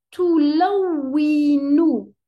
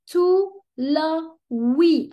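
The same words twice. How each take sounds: First: "tout la oui, nous" slow and louder, the W doubled hard; teacher repeats the word for students, louder and stressed; doubled letter stressed. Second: "tout la oui" drawn out very slowly, the W doubled; teacher models a shadda word, slowly and clearly; slow shadda demo. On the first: تشديد الواو بصوت أعلى. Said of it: "Donc, je dis". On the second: نطق بطيء مع الشدة. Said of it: "je vais prononcer". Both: Shown as a demonstration.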